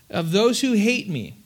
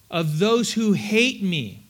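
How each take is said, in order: First: Said in the usual way. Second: Slow, each word weighed; deliberate scripture reading; slow emphatic reading. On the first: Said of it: "read it again". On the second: Shown as a demonstration. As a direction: read it out slowly for weight. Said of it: "read it slowly".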